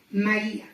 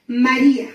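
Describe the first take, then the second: First: Tender repeat. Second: Calling her name. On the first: Jesus calls her name again. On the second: Jesus calls Mary by name. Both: Acted.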